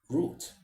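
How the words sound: It is said with a British pronunciation. "if you want to speak the British English, then you go for root"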